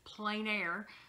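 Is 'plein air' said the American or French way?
American. It sounds like English 'plain air'. "we pronounce it here in the U.S. as plein air, like a seeing plain and clear"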